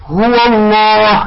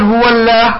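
First: "الله" with dark ll and rounded long vowel; slow "هو الله", thicken "الله" toward "lloh"; heavy lam. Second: "الله" with thin l and front "laah"; wrongly light lam. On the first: Teacher models correct lam after fatha, thick "الله". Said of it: "ففخمناها". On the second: Teacher shows what not to say, thin lam in "الله". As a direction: say "هو الله" with "الله" flattened to a light "llaeh". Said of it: "لا نقول". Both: Shown as a demonstration.

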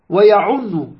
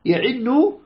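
First: ويعن said wa-ya'unnu, with a u after the ayn; damma on ayn. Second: يعن said ya'innu, with an i after the ayn; kasra on ayn. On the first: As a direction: give ويعن a u vowel on the ayn, doubled n. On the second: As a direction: give يعن an i vowel on the ayn, doubled n. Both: Shown as a demonstration. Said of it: "بكسر العين وبضمها".

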